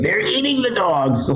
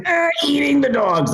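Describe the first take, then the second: First: High, drawn-out political impression; Donald Trump. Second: Very high, strained grunting impression; grunted Donald Trump. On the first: Comic recalls a campaign line, as Trump. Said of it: "do a Trump impression". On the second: Comic shows the effortless impression, grunted Trump. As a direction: push it out like a grunt on the toilet. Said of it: "if you're grunting, just, it comes out".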